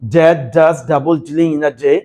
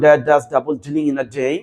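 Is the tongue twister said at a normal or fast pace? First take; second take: normal; fast. First: The phrase is said at a normal pace. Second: The phrase is said a bit faster.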